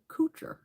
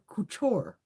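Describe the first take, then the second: First: The name ends with a 'cher' sound. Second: The name ends with a 'toor' sound. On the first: The speaker calls it wrong. "that is not how that this name is said" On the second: The speaker calls it right. "It's Couture"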